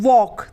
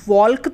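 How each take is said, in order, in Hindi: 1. K से पहले L की कोई आवाज़ नहीं बोली जाती। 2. K से पहले L की आवाज़ बोली जाती है। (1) "क्या बोलते हैं, वॉक" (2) "हम वॉल्क तो नहीं बोलते"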